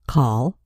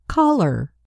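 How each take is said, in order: First: Said in the usual way. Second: Caller with the er ending made clear; ending added. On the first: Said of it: "We add E R to call". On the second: Shown as a demonstration. Teacher showing the new ending on caller. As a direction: lean on the er of caller. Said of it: "and we have caller".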